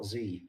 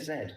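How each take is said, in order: First: The letter is said the American way, zee. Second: The letter is said the British way, zed.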